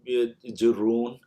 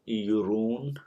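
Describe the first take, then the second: First: The word begins with a j sound. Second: The word begins with a y sound. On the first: This is the standard form of the word. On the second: This is the local dialect form of the word.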